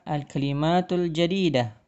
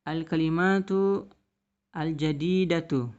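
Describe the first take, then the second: First: Only the first word keeps a linking vowel. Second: Both words end with a pronounced vowel. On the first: This is another way to read it aloud. "atau bisa juga" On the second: This is the full written form. "tulisannya adalah"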